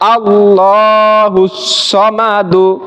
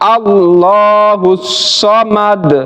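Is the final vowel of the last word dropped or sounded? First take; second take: sounded; dropped. First: The last word ends with a short 'u' vowel. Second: The last word ends cut short on 'd'. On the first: The recitation continues without stopping. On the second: The reciter stops at the end of the verse.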